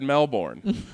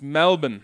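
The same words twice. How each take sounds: First: It is said without an Australian accent. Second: It is said with an Australian accent. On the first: The speaker calls it wrong. "because I know you just said Melbourne" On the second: The speaker calls it right. "there's a little bit of Australian accent in there"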